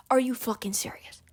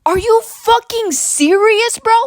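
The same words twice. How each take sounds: First: Whispered disbelief. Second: High, slow incredulous yell; outraged. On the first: Repeating the complaint to viewers, whispered in disbelief. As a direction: mutter it again under your breath. Repeats the outburst under breath. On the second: Venting to viewers about school, slow outraged yell. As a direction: drag it out in loud disbelief. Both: Real, not acted.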